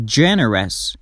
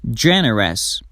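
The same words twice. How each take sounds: The two takes are said the same way.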